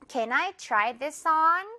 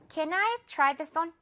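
First: The final 'on' is long and drawn out. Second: The final 'on' is short and passed over.

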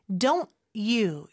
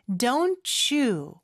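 First: The two words are slightly separated by a break. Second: The two words are linked smoothly together.

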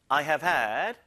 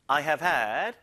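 First: The stress is on had. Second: The stress is on had.

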